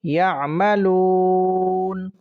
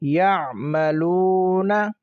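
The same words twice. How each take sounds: First: The word stops on the final consonant. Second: The word ends with a short vowel.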